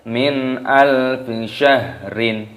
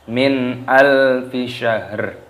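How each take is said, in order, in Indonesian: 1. Kata terakhir berakhir dengan tambahan bunyi -in. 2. Kata terakhir berakhir dengan bunyi r saja.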